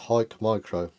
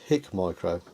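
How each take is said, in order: First: The first word rhymes with 'like'. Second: The first word rhymes with 'sick'. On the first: The speaker calls it right. "It's pronounced Hike Micro" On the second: The speaker calls it wrong. "I thought this said Hick Micro"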